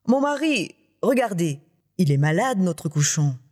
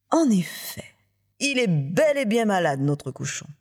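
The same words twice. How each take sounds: First: Alarmed wife, pitch leaping then falling; effroi. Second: Mock surprise, high start sliding down; surprise feinte. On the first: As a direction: call your husband in mild acted dread. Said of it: "elle pousse un cri d'effroi". (épouse effrayée, un peu théâtrale) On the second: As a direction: feign surprise as you agree. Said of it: "Feignant la surprise". (surprise feinte, exagérée avec retenue) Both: A narrator's reading.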